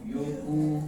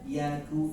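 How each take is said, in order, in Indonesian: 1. Vokal pertama membulat, dengan bibir dimonyongkan. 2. Vokal pertama terbuka, dengan bibir melebar. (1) "jangan yoku yoku. Itu masih tamdil" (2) "harus dibiasakan ketika baca huruf tipis"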